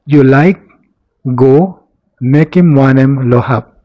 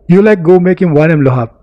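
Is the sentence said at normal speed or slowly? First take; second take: slowly; normal. First: The sentence is said slowly and deliberately. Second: The sentence is said at normal conversational speed.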